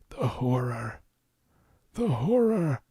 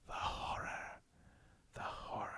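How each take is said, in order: First: It is said in a put-on old man voice. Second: It is said in a soft ASMR-style whisper. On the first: "I did like an old man voice" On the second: "I didn't do like"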